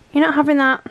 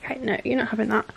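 First: Louder, firm telling-off; firm no to the dog. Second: Said in the usual way. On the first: Real, not acted. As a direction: put your foot down with the dog. Dog reaching for plate.

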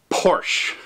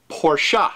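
First: Porsche as one syllable, "porsh". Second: Porsche as "POR-shuh"; two-syllable Porsche. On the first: Introducing the car name to owners, Porsche said as "porsh". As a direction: say Porsche with no vowel at the end. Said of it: "now the word Porsche, or Porsche". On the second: Introducing the car name to owners, Porsche said as "por-shuh". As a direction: say Porsche with an "uh" on the end. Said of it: "is pronounced Porsche in German". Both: Shown as a demonstration.

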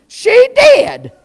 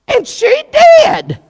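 First: "She did" jumps much higher, the word "did" punched; stress on did. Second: Said in the usual way. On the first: Shown as a demonstration. Preacher confirming Jezebel's deed, high emphatic "She did". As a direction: drive home "She did" as the verdict.

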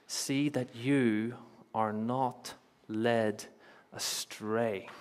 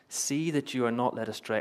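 First: Very slow, with pauses before the last words; drawn-out, measured warning; solemn repeated warning. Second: Said in the usual way. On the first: Acted. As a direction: let each word land separately.

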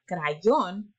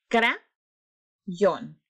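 First: Said in the usual way. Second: "Crayón" as two syllables with a long pause between; split into syllables. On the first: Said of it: "Vamos a separar la palabra". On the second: Shown as a demonstration. Teacher separating a word for pupils, "Crayón" split into syllables. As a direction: break "Crayón" after the first syllable, lifting it, then drop on the second. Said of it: "separar la palabra crayón en sílabas".

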